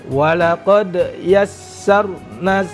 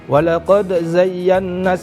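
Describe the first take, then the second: First: The phrase is recited slowly. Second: The phrase is recited quickly. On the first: The speaker calls it right. "Harusnya ditartilkan" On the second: The speaker calls it wrong. "ini terlalu cepat"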